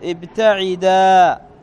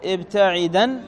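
First: The word ends in a long a vowel. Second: The word ends in an n sound. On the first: The word stands at a pause. "فتقول في الوقف ابتعدا" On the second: The word runs on into the next words. "وإذا وصلت تقول"

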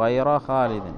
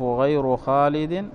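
First: The word ghayr ends with an a vowel. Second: The word ghayr ends with a u vowel. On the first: The word marks an exception. "والنصب" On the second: The word stands as a substitute agreeing with the subject. "بالإتباع"

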